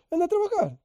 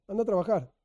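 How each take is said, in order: First: High, sneering mock dismissal; the selfish rich man sneering at the beggar; mocking scold. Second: Said in the usual way. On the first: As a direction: toss it off with scorn, pitched way up.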